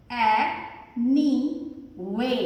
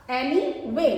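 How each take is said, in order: First: एनी वे very slow, ए, नी, वे set apart; split syllables. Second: Said in the usual way. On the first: Shown as a demonstration. Teacher dividing the word for pupils, split syllables. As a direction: sound out "एनी वे" with long gaps.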